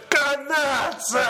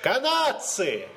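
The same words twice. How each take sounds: First: It is said loudly, with enthusiasm. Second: It is said weakly, without energy.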